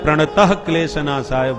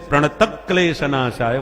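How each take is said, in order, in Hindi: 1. 'pranata' के बाद 'klesha' से पहले एक साँस-युक्त h-sound आता है। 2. 'pranata' के बाद 'klesha' से पहले एक k-sound आता है। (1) "प्राय लोग प्रणतः क्लेश नाशाय बोलते हैं, प्रणतः में विसर्ग लगा देते हैं" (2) "प्रणतक क्लेश नाशाय बोला जाता है"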